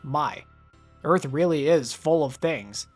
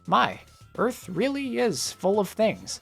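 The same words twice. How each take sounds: First: It is said in a flat, dismissive tone. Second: It is said in an awed, impressed tone. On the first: The world is just a pile of stuff to collect. "fits the consumerism reading like a glove" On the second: The world holds wonderful things worth admiring. "with a different pace and intonation"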